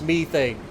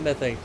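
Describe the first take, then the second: First: The word has the British pronunciation. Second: The word has the American pronunciation. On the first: "somebody with a very strong British accent" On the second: "Welcome to Ohio, where we say methane"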